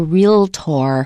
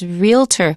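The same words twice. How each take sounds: First: The last syllable is a full 'or' sound. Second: The last syllable is a reduced 'er' sound. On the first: The speaker is repeating it so a listener hears clearly. "Sometimes we will put the O back in there to make it clear" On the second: This is the ordinary everyday way to say it. "that's not the usual way we say it. It's realtor"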